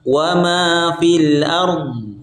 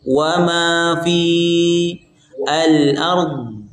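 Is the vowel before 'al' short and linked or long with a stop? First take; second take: short linked; long stopped. First: The vowel is short and runs straight into 'al'. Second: The vowel is long, then a stop before 'al'. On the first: "cara baca yang pertama" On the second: "dibaca panjang ketika waqaf"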